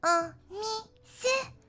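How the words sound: It is said in a cringy put-on voice.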